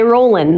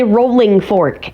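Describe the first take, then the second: First: "rollin'" said with a short final n and no g; "rollin'" the way a typical Kentuckian drops the g; Kentucky rollin'. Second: "Rolling Fork" said slowly, with a full, careful -ing; "Rolling Fork" drawn out, every sound spelled out; Ryan's Rolling Fork. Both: Shown as a demonstration. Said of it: "he'll say".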